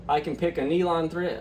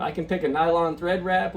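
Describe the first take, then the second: First: "nylon" said as "nee-lon"; "nylon" slipped out as "nee-lon"; slip of the tongue. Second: "nylon" said properly as "NY-lon"; corrected pronunciation. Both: Real, not acted. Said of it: "uh, sorry".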